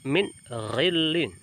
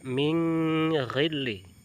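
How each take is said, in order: First: The n sound is pronounced clearly and fully. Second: The n sound is hidden and nasalized. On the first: The speaker calls it right. "dibaca izhar halqi atau dibaca jelas" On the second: The speaker calls it wrong. "tidak boleh membaca"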